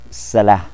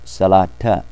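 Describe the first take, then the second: First: The word ends without a t sound. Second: The word ends with a t sound and vowel. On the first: The word stands at the end, with nothing following. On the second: The word continues into what follows.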